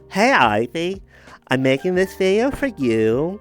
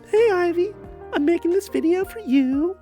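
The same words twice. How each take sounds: First: The put-on voice is pitched somewhat lower. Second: The put-on voice is pitched very high. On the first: "Let me see" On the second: "it's way too high pitched. I can't do it"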